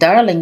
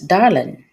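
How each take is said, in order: First: The ending is a full 'ing' sound. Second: The ending is shortened to 'in'. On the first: This is the formal way to say it. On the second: This is a relaxed, casual way of speaking.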